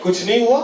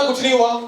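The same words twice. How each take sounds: First: Acted wife's first brush-off; brush-off denial. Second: Acted wife's higher-pitched, irked denial; irritated insistence. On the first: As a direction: deny it briefly, not yet insisting. (पत्नी का टालने वाला जवाब) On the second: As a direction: insist on it, raised pitch, annoyed at being asked. Wife denies again when asked twice. (चिढ़कर ऊँचे सुर में दोहराना)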